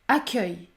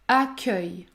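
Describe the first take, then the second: Both takes have the same delivery.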